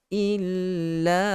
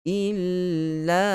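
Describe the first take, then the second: Both takes have the same delivery.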